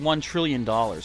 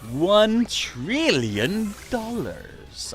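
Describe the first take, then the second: First: It is read in a plain, natural voice. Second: It is said in an imitated character voice.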